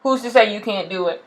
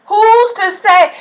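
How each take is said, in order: First: Said in the usual way. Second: "Who's to say?" drawn out slow and high; slow high challenge. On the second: Shown as a demonstration. Vlogger challenging doubters, slow and high. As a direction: dare them to name who says so. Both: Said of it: "rhetorical question repeated".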